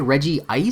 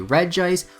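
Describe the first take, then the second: First: It is said as Regi plus ice. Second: It is said as one blended word. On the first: It matches the sibling names. "it fits more in line with the other two" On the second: It follows the spelling. "phonetically it should be Regice"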